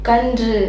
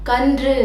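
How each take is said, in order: No difference in how they are said.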